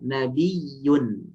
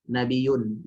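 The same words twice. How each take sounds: First: The y sound is held long and doubled. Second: The y sound is short and single. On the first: The speaker calls it right. "Kuatnya kuat yang standar" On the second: The speaker calls it wrong. "tidak boleh kita baca"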